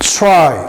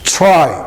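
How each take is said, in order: No difference in how they are said.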